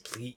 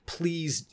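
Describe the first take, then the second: First: It is said in a croaking, animalistic voice. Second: It is said in a pleading, begging voice.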